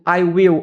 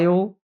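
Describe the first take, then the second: First: Both words are pronounced fully and separately. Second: The two words merge into one short syllable.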